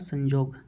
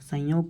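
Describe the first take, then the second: First: The middle consonant is a j sound. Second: The middle consonant is a y sound. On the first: This is the Nagpuri form. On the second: This is the standard Hindi form.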